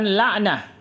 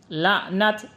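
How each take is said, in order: First: The word ends with a soft h sound. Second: The word ends with a clear t sound. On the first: The speaker calls it wrong. "bukan la'nah" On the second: The speaker calls it right. "La'nat bukan la'nah"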